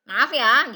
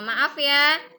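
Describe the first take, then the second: First: It is said in an angry tone. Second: It is said in a polite, gentle tone. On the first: The speaker calls it wrong. "tapi dengan marah-marah" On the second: The speaker calls it right. "diucapkan dengan bahasa yang sopan dan santun"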